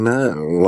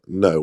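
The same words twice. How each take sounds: First: It is drawn out and hesitant after a hum. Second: It is short, firm and self-assured. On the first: The person may be keen or unsure. "some they go mm, no like that" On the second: The person is secure and settled. "they're really secure and and sort of happy"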